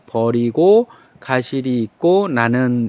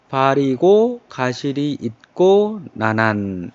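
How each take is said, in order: First: The first word starts with an 'eo' vowel. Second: The first word starts with an 'a' vowel. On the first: It follows the modern pronunciation. "현대어 발음으로 해줘도 괜찮아요" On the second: It follows the old pronunciation. "첫 번째 음절이니까 그냥 아로다가 해주고"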